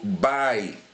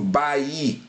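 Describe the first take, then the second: First: The A vowel is pronounced stronger than the I. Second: The I vowel is pronounced stronger than the A. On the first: The speaker calls it right. "Eu pronuncio bai" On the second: The speaker calls it wrong. "Eu não pronuncio bai"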